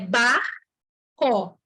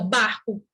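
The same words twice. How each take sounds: First: The word is said slowly with every sound stressed. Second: The word is said quickly, like normal speech. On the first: "Eu estou enfatizando" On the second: "mas a gente fala rápido"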